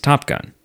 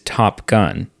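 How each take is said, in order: First: It is said as one single unit. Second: It is said as two separate words.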